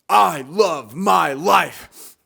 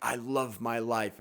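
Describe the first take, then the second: First: It is said with loud, pumped-up enthusiasm. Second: It is said plainly, without enthusiasm.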